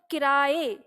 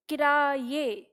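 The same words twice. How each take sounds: First: Said in the usual way. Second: किराए in separated syllables with an audible y, ki-raa-ye; full pronunciation. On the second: Shown as a demonstration. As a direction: sound out किराए fully as ki-raa-ye. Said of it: "हम इसका उच्चारण पूरा करते हैं". (किराए का पूरा उच्चारण, कि-रा-ये)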